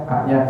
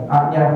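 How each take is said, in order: Both takes have the same delivery.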